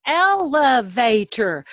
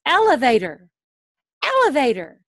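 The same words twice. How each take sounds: First: Elevator said slowly, syllable by syllable, louder; broken into syllables. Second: Said in the usual way. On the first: Shown as a demonstration. Teacher breaking up a word for a student, syllable by syllable. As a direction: tap out each part of Elevator. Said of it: "you can break it up".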